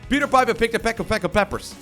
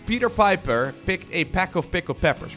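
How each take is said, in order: First: The phrase is said at a fast pace. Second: The phrase is said at a slow pace.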